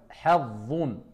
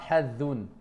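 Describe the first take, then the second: First: The final consonant is heavy, filling the mouth. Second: The final consonant is light, not filling the mouth. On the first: The speaker calls it right. "On sort la langue et on remplit la bouche" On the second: The speaker calls it wrong.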